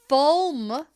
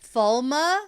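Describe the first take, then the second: First: The name ends on the consonant sound. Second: The name ends with an extra vowel sound. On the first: This is how the TV show says it. "pronunciation is how we do it in the show" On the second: This is how readers of the books say it. "is the way that we pronounce it when we read the books"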